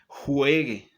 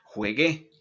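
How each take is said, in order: First: The stress is on the first syllable. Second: The stress is on the last syllable. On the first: The speaker calls it right. "el subjuntivo es forzoso que la lleve en la penúltima sílaba" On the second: The speaker calls it wrong. "No es"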